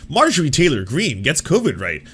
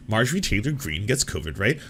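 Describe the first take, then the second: First: Said in the usual way. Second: Softer, rising disbelieving echo; incredulous repeat. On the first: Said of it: "look at this kind of shit". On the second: Shown as a demonstration. Echoing the headline back in quiet disbelief. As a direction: repeat it as if you can't believe it. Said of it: "Like, cartoonish".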